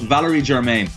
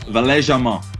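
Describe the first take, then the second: First: The name is said with an English pronunciation. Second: The name is said with a French pronunciation. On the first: The speaker calls it wrong. "we'd call him" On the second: The speaker calls it right. "but it's"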